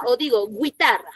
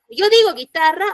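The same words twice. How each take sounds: First: Guitarra said "gwee-TA-rra", with a w glide; mispronounced guitarra with gw at the start; U wrongly sounded. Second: Said in the usual way. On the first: Shown as a demonstration. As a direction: sound the silent U in guitarra, like "güitarra". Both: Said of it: "¿Sonó la U?".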